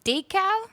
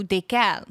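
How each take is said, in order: First: DAY-kal, "Decal" pitched high and questioning; stress on first syllable. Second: Day-KAL, weight on the end of "décal"; stress on last syllable. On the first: Streamer asking where emphasis goes, "Decal" as high DAY-kal. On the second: Streamer offering the alternative, "décal" as day-KAL. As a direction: lean on the second syllable of "décal". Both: Shown as a demonstration. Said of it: "Where do you put the, um, emphasis?".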